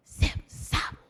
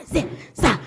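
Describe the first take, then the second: First: Breathy whispered chant. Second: Said in the usual way. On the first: Shown as a demonstration. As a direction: whisper it softly to the group. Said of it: "whisper it". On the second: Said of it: "A little bit louder".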